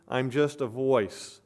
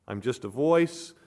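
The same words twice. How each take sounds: First: Slow, falling stress on "just"; "I'm just a voice" drawn out slow with "just" stressed; slow, weighted humility. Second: Said in the usual way. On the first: Shown as a demonstration. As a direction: lean on "just" and let it settle. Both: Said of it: "He's the Word".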